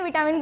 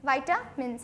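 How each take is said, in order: First: The first syllable is said with a short 'vi'. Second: The first syllable is said with a 'vai' diphthong. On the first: The speaker calls it wrong. "विटामिन बोलिएगा मत" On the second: The speaker calls it right. "वाइटामिन बोलते हैं"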